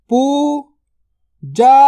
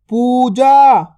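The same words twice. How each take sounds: First: Puja drawn out very slowly; slow stretched word. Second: Said in the usual way. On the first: Shown as a demonstration. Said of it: "stretched drill take". (पूजा को धीरे खींचकर बोलें) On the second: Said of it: "normal take".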